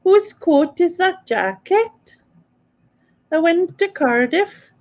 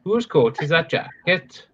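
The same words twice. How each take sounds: First: High, slow attempt at Welsh; mock Welsh accent. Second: Slow put-on Welsh lilt; Welsh accent. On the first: Repeating the housemate's phrase, in a high mock-Welsh accent. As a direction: copy a Welsh accent, pitched high and drawn out. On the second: Showing a housemate the phrase, in a slow Welsh accent. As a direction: ask it slowly in a Cardiff Welsh accent. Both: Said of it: "What part of Wales is that then?".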